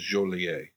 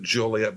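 First: It is said with a French pronunciation. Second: It is said with a local American pronunciation. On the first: "the French pronunciation is Joliet" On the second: "The Chicagoans pronounce it Joliet"

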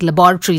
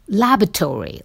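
First: It is said in a non-American pronunciation. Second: It is said in an American pronunciation. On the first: "what I say" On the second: "what I believe it's American"

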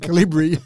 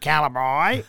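First: It is said the other, standard way. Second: It is said the broad Australian way. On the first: "rather than Calibri" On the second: "the Aussie bogan in both of us that says Calibri"

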